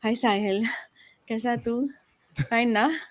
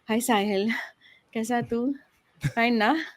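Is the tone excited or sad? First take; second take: sad; sad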